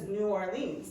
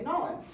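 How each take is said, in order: First: The city name is said with every syllable. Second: The city name is squeezed into two syllables. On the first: This is the formal way nobody actually uses. "Nobody says" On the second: This is how people actually say it. "they say"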